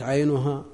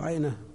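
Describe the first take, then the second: First: The word ends with a 'u' vowel. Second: The word ends with an 'a' vowel. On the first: The eye is what is ailing. "فتكون المشتكية هي العين" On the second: The woman complains about her eye. "يعني اشتكت المرأة عينها"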